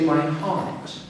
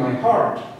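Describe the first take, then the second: First: English accent, the R is not pronounced. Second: American accent, the R is clearly pronounced. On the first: "In English you say" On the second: "But in American"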